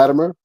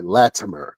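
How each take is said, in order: First: The middle consonant sounds almost like a D. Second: The middle consonant is a clearly pronounced T. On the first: "It sound, almost sound like a D" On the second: "sometimes I have to pronounce it, pronunciate it"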